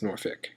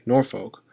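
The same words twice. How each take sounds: First: It is said in the local Tidewater accent. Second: It is said in a general American accent. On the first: This is how locals who grew up there say it. "if you grew up in this region, it's Norfolk" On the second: This is how most people say it. "Most people say Norfolk"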